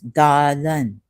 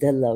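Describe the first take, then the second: First: The word ends with an audible N sound. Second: The word ends on a vowel, without N. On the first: "So this N is pronounced here also" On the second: "without the N"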